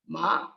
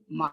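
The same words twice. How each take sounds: First: The pitch goes up through the word. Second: The pitch stays low and level. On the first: "And the rising tone" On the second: "a low tone"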